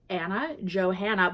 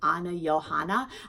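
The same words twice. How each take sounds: First: Johanna starts with an English J sound. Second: Johanna starts with a Y sound.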